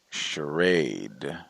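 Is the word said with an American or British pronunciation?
American. It is said with an American pronunciation. "I say charade"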